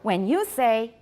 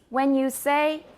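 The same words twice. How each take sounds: First: The word 'you' is stressed. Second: The word 'you' is left unstressed. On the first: The speaker calls it wrong. "So it's not when you say" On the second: The speaker calls it right. "it's when you say these"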